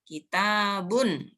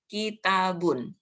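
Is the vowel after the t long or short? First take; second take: long; short. First: The vowel after the t is held long. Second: All the vowels are said short. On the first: "dibaca panjang karena apa? Ada ada alif mati" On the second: "bacanya pendek semua"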